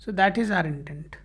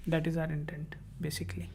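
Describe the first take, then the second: First: Said in the usual way. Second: Breathy whisper, much softer; hushed whispered echo of the point; whispered aside. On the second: Real, not acted. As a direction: drop to a whisper for the repeat. Repeats intent line as aside.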